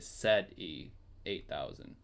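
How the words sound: The letter Z is pronounced zed, non-American style.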